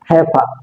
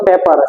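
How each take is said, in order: First: The first p has a puff of air. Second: The first p is plain, without a puff of air. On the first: The speaker calls it right. "সেটা হবে হেফা" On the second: The speaker calls it wrong. "সেটা পেপার না"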